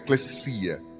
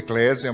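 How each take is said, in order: First: The middle consonant sounds like an s. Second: The middle consonant sounds like a z. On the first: The speaker calls it right. "tem som de S mesmo; o correto é eclesia" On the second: The speaker calls it wrong. "A gente fala eclesia ou eclésia"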